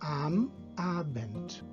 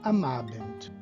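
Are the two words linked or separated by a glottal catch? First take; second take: separated; linked. First: A glottal catch separates the two words. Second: The two words run together without a catch. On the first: The speaker calls it right. "antes da vogal sempre am Abend" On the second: The speaker calls it wrong. "e não am Abend"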